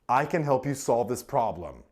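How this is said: The stress falls on the word can. The speaker is able to do it. "Emphasizes your capability"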